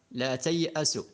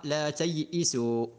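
First: Said in the usual way. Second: تيئسوا said "tay'isu", an i after the hamza; variant reading with i. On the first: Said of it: "فيجوز أن يقرأ". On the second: Shown as a demonstration. Teacher shows a permitted Quran reading, تيئسوا as "tay'isu". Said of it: "فيجوز أن يقرأ لا تيئسوا".

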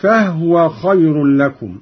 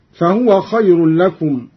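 First: فهو as fah-wa; slow فهو with no vowel on the h; silent-vowel haa. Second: Said in the usual way. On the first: Shown as a demonstration. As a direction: close فهو on h, then wa. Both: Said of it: "قرأ قالون بإسكان الهاء".

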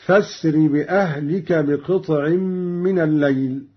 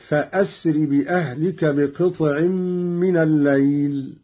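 First: فاسر joined on, no glottal stop; connecting hamza. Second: فأسر recited with a clear hamza; cutting hamza. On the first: Teacher demonstrates Qalun's reading, hamza joined. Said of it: "بوصل الهمزة هكذا". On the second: Teacher recites the verse before Qalun's reading. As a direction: start فأسر with a glottal stop. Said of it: "قرأ قالون بوصل الهمزة". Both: Shown as a demonstration.

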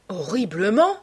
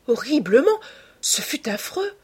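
First: "Horriblement" with a rising, stunned tone; mild astonishment, lifting at the end; stupefied. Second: Appalled exclamation. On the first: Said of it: "la considérant avec stupéfaction". (stupéfait, ton montant) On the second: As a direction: leap up high in horrified reproach. Appalled youth repeats his verdict. (exclamation horrifiée, aiguë) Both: A narrator's reading.

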